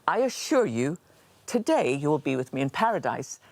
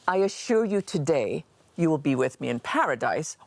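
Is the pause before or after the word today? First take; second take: before; after. First: There is a pause before today. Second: There is a pause after today.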